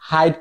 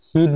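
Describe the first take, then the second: First: The vowel is pronounced like 'eye'. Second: The vowel is a short 'i' sound. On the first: The speaker calls it wrong. "এখানে আপনি হাইট করুন না" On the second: The speaker calls it right. "আপনি হিট বলেন"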